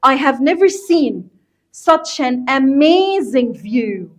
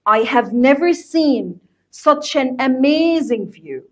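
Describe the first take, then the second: First: Slow, careful teacher reading with weight on never and amazing; slow classroom model reading; slow model sentence. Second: Slow repeated model sentence, "never" and "amazing" stressed; patient teacher repeat. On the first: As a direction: spell it out slowly, leaning on "never" and "amazing". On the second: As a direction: say it again slowly so students catch it. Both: Shown as a demonstration. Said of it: "بص كده".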